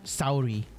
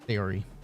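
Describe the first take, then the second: First: The first part sounds like the word sour. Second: A Y glide joins the first and second syllables. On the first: "Some people say Sauri. Like sour, but with I" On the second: "It sounds like there's a Y"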